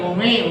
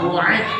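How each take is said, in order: First: The word has an m sound after u. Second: The word has a glottal stop after u. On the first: The speaker calls it wrong. "Jangan umi" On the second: The speaker calls it right. "Uai dirubah uai"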